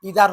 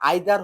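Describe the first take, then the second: First: It is said with an American pronunciation. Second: It is said with a British pronunciation. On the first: "ইদার হবে American স্টাইলে" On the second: "আইদার হবে ব্রিটিশে"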